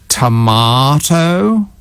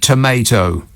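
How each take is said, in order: First: It is said in a British accent. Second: It is said in an American accent. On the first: Listeners in America do not understand it. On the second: Listeners in America understand it.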